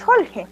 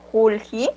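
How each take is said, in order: First: JORGE with U opened to O and I to E; O and E vowels. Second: JULJI with U and I vowels; said as written. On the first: Learner asking about the sound, JORGE with O and E vowels. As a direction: open both vowels in JORGE to O and E. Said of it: "con la O y con la E". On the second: Teacher reading out the spelling, JULJI with plain U and I. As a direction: keep JULJI to U first and I last. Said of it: "que se escribe así". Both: Shown as a demonstration.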